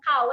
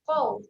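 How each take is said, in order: First: It starts with a light, plain k sound. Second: It starts with a deep, heavy q sound. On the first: The speaker calls it wrong. "bukan kau eh" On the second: The speaker calls it right. "bunyi dia adalah qaw"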